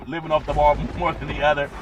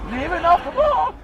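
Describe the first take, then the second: First: Said in the usual way. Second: High quick imitation.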